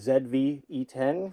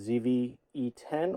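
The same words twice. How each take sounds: First: The letter Z is pronounced 'zed'. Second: The letter Z is pronounced 'zee'.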